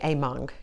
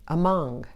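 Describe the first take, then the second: First: The first vowel is a full, clear vowel. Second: The first vowel is reduced to a short uh. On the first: The speaker calls it wrong. "You don't say among" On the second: The speaker calls it right. "you hear the uh sound in those"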